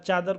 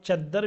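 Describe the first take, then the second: First: The middle consonant is short and single. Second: The middle consonant is doubled and held long.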